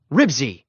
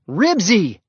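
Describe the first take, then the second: First: Short, mildly sharp call to a dog. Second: High, loud shouted name. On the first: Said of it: "Henry spoke sharply". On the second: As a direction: shout for your dog. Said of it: "shouted Henry". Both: A narrator's reading.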